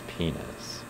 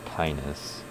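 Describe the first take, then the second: First: The first vowel is an E sound. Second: The first vowel is an I sound. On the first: "They pronounce it with an E sound" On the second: "instead of an I sound"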